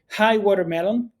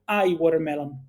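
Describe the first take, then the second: First: The opening H sound is clearly pronounced. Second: The opening H sound is left out. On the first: The speaker calls it right. "it's important to uh, pronounce everything correctly. So hi watermelon" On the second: The speaker calls it wrong. "Do not say I watermelon. So of course I'm exaggerating here"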